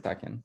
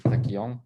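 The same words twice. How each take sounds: First: It is said with an English pronunciation. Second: It is said with a Brazilian Portuguese pronunciation. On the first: "Em inglês seria assim" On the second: "acho que é do Brasil deve ser uma coisa assim"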